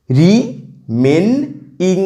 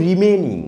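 First: রিমেনইং very slow, split as রি, মেন, ইং; three syllables. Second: Said in the usual way. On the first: Shown as a demonstration. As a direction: count out রিমেনইং in three separate beats with pauses. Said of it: "একটা trisyllabic word". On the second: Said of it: "এবার দেখো".

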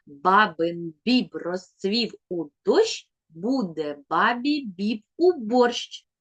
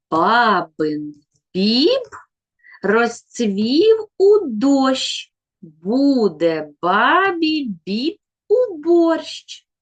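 First: «Бабин біб розцвів у дощ» said slowly and evenly; slow twister again. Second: Every «б» in «Бабин біб» stressed, slow and louder; slow tongue twister. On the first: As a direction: repeat the twister slowly so kids count. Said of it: "я ще раз вимовлю нашу скоромовку". (повільна скоромовка) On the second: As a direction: spell the twister out slowly for counting. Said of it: "послухайте скоромовку". (скоромовка повільно, наголошуючи «б») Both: Shown as a demonstration.

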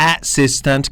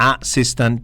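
First: "assistant" opening with a full "ass"; wrong pronunciation. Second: "assistant" with a short "uh" start; best pronunciation. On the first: Teacher shows what to erase, "assistant" wrongly as ASS-sis-tant. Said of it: "ถ้าตอนนี้กำลังออกเสียงเป็น". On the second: Teacher gives the best way, "assistant" as uh-SIS-tant. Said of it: "เป็น assistant ดีที่สุดครับ". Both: Shown as a demonstration.

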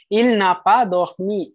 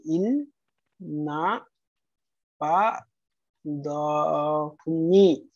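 First: Said in the usual way. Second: "Il n'a pas dormi" dictated slowly, pausing after each word. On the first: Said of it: "Il n'a pas dormi (slow repeat)". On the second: Shown as a demonstration. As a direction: break "Il n'a pas dormi" into separate words for students.

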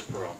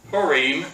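First: Purim with a weak, short "-um" ending; common pronunciation. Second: Purim with a long, clear "EEM" ending; correct pronunciation. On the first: Teacher quoting how everybody says it, Purim as "PURR-um". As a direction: say Purim as "PURR-um", front-stressed. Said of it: "everybody says Purim". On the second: Teacher showing the class the correct way, Purim ending in "-reem". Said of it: "actually the correct way of pronouncing it". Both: Shown as a demonstration.

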